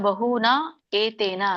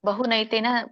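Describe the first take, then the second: First: The words are said apart as two words. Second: The words run together as one joined word. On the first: "ಬಿಡಿಸಿದಾಗ" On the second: "ಕೂಡಿ ಹೇಳಿ"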